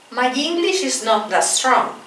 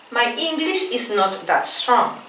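No difference in how they are said.

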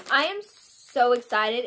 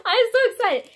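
First: Each word drawn out slowly; slow and deliberate. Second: High, loud, laughing with glee; excited laughing. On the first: Shown as a demonstration. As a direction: say it again slowly and evenly. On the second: Real, not acted. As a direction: bubble over with joy.

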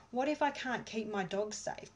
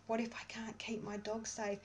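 First: Anxious voiced. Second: Anxious whisper of What if I can't keep my dog safe; a frightened whisper repeating the worry. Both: Shown as a demonstration. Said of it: "tapping through all your fear".

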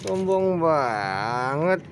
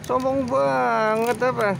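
First: Lower, very slow drawn-out remark; slow mock sulk. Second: Higher, slow teasing question; drawn-out mock scold of a stuck-up cat. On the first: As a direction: stretch each word out lazily, lower down. Teasing the cat again. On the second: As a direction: tease the cat slowly and higher up. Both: Real, not acted.

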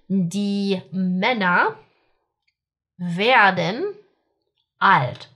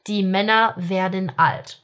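First: Die Männer werden alt, slowly, with long pauses between words. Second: Said in the usual way. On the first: Shown as a demonstration. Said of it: "Okay, so the men become old". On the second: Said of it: "smooth recap of the drill sentences".

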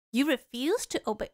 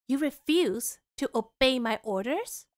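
First: Said in the usual way. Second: Slow, stern royal command, voiced low. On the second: Shown as a demonstration. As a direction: lay down the law like a stern princess, slowly. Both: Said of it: "let me put on a more stern voice".

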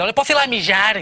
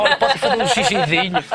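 First: Said in the usual way. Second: Dainty ask. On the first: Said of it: "Não". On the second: Shown as a demonstration. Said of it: "Ela foi charmosa".

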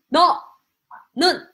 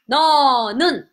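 First: 너는 slowly split, 너, long pause, 는; syllable by syllable. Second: Said in the usual way. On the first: Shown as a demonstration. Teacher drilling learners on a new word, 너는 slowly split. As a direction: say 너는 as two separate syllables.

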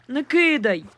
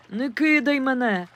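First: Pleading louder. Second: Pleading. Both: A narrator's reading. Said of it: "попросив він".

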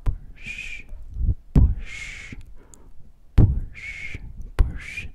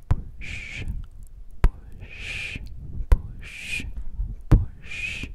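The two takes are said the same way.

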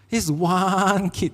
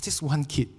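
First: "one" stretched long and slow; slow down and drag out the word "one"; drawn-out emphasis. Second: Said in the usual way. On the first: Real, not acted. Pastor singling out a troublesome camp kid, drawn-out emphasis.

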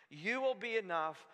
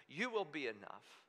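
First: Said in the usual way. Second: Soft and low, settled conviction; quoting Habakkuk softly to God; quiet resolve. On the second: Retold or imitated. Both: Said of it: "he says".

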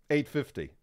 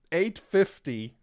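First: Said in the usual way. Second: "Eight fifty" drawn out slowly, louder and higher; slow emphatic. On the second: Shown as a demonstration. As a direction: stress "Eight" and stretch out "Eight fifty".

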